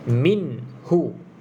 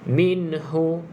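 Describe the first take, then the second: First: The n sound is held smoothly without bounce. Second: The n sound ends with an echoing bounce. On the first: The speaker calls it right. "dia tak ada lantunan" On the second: The speaker calls it wrong. "ne tu dah jadi ada lantunan"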